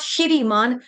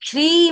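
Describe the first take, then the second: First: A short vowel separates the sh and r. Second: The sh and r are joined without a vowel. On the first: The speaker calls it wrong. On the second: The speaker calls it right.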